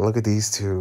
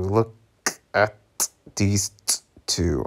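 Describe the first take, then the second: First: Said in the usual way. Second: A pause after each word of "Look at these two". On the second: Real, not acted.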